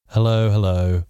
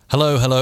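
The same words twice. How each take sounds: First: The voice has no added high frequencies. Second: The voice has boosted high frequencies.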